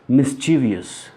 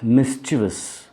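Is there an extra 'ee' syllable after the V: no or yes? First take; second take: yes; no. First: An extra 'ee' vowel follows the V. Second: No extra vowel follows the V sound. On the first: The speaker calls it wrong. "People pronounce it mischievous" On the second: The speaker calls it right. "There is no I after V in that word"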